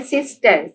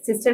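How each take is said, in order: First: sister parted as sis-ter; teacher separating sis, ter in sister; syllable by syllable. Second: Said in the usual way. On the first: Shown as a demonstration. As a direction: sound out sister in two measured beats. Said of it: "sister के भी टू syllables हैं". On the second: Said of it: "भी टू syllables हैं".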